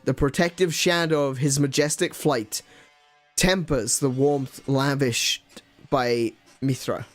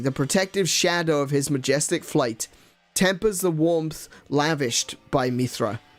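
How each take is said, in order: First: It is read in a halting, dramatic put-on voice. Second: It is read smoothly in a natural speaking voice. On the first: The speaker calls it wrong. "doing an impression of Captain Kirk" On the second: The speaker calls it right. "Let me try to speak again without doing an impression"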